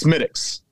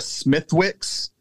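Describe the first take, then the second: First: The W is silent, said like Smittick's. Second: The W is pronounced in the middle. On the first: The speaker calls it right. "There's no W" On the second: The speaker calls it wrong. "they quickly corrected me"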